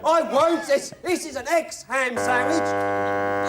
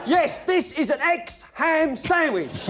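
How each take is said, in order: First: Slow, deliberate Python complaint; Monty Python sketch voice. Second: Monty Python sketch voice. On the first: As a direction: spell it out slowly, Python style. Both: Acted. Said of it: "Monty Python".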